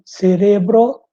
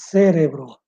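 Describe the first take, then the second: First: "cerebro" slow, louder, stressed ce-RE-bro; Spanish stress on RE. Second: "cérebro" stressed CÉ-re-bro, falling; Portuguese stress on CÉ. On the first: Teacher showing Spanish word, slow stress on RE. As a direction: punch RE in "cerebro". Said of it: "Em espanhol". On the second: Teacher contrasting Portuguese, first syllable stressed. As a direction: hit CÉ in "cérebro". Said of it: "e em português". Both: Shown as a demonstration.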